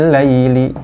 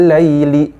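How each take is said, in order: The two takes are said the same way.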